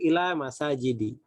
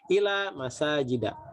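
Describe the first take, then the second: First: The last word ends with an i vowel. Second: The last word ends with an a vowel. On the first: The speaker calls it wrong. "Tidak boleh kita mengatakan" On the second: The speaker calls it right. "tapi harus"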